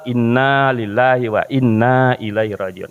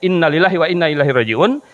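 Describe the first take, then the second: First: The vowel in ilaihi is lengthened. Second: The vowel in ilaihi is short. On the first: It carries the intended meaning. The speaker calls it right. "jangan lupa dipanjangkan" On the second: The meaning changes. The speaker calls it wrong. "itu maknanya bisa berubah gitu"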